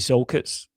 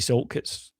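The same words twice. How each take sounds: First: The name is said without a T sound. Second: The name is said with a T sound. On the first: This is how locals down here say it. "like with no T" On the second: This is how people from elsewhere say it. "with a T"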